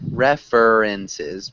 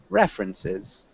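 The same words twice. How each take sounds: First: The middle 'er' sound is fully pronounced. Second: The middle 'er' sound is dropped. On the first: The speaker calls it wrong. "You still seem to be pronouncing that er" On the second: The speaker calls it right. "we'd want to just say ref, rin, sis"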